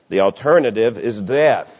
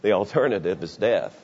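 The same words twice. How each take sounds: First: It is shouted loudly. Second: It is said at a normal volume.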